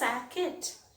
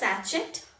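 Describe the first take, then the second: First: The middle sound is k. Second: The middle sound is ch. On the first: "It is not pronounced as sacket" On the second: "It is not pronounced as sachet"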